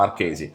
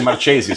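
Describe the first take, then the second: First: The 'ch' sounds like a 'k'. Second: The 'ch' sounds like English 'ch' in 'church'. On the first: The speaker calls it right. "the C, the H, the E is like K" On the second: The speaker calls it wrong. "I was worried you would say Marchesi"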